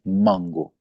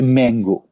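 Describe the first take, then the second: First: The first vowel is an open 'ah' sound. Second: The first vowel sounds like the 'a' in cat. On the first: It is said the German way. "लेकिन जर्मन में मांगो" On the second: It is said the English way. "अगर इंग्लिश में ... आप कहेंगे इसको कि मैंगो"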